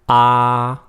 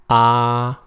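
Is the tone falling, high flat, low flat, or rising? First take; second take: high flat; high flat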